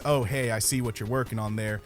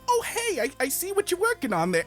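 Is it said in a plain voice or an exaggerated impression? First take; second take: plain voice; exaggerated impression. First: It is said in a plain, ordinary voice. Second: It is said as an exaggerated, mocking impression.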